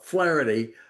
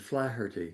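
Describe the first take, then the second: First: The name is said with an American accent. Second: The name is said with an Irish accent. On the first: "as the Americans call it" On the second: "I use the Irish pronunciation"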